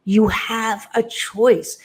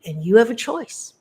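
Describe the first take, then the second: First: "You have a choice" said slowly, each word weighted; slow emphasis. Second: Said in the usual way. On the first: Shown as a demonstration.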